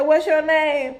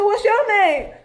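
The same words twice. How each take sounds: First: Said in the usual way. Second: High, louder, laughing disbelief; laughing high echo of the caller's question; incredulous echo. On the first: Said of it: "she said". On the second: Retold or imitated. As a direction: throw the question back in shock. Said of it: "I said".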